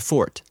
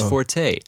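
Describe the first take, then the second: First: The word is said as one syllable. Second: The word is said as two syllables. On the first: This is the officially correct pronunciation. "That's the official way I'm supposed to pronounce it" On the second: This is the pronunciation most people use. "everyone says forte"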